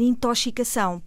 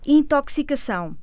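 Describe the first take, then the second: First: X de intoxicação pronunciado "sh"; intoxicação dito com "ch". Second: X de intoxicação pronunciado "ks"; intoxicação dito com "cs". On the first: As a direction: mispronounce intoxicação with sh for ks. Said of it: "Muitas vezes ouvimos dizer". (intoxicação com som de "ch") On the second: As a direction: say intoxicação with a clear ks. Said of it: "como é que se pronuncia". (intoxicação com som de "cs") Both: Shown as a demonstration.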